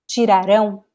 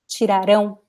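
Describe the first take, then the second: Both takes have the same delivery.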